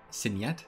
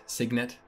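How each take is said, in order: First: "signet" said French-style, like sin-yet; French-sounding signet. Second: "signet" with a hard g, sig-net; English signet. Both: Shown as a demonstration.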